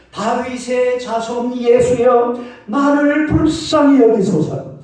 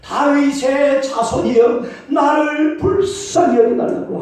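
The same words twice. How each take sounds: First: Slow, higher pleading cry to Jesus. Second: Higher, slow pleading cry; louder cry. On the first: Blind Bartimaeus crying out to Jesus, slow pleading shout. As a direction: drag it out, begging for mercy. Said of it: "막 꽝을 쳤습니다". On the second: Bartimaeus crying louder despite the crowd, slow pleading shout. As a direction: stretch every word, begging harder. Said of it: "더 크게 막 소리쳤어요". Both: Retold or imitated.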